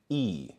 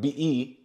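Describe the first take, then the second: First: The vowel sound is pronounced once. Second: The vowel sound is pronounced twice. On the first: The speaker calls it right. "No, it's E" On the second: The speaker calls it wrong. "we would not pronounce the vowel twice. It's not B E"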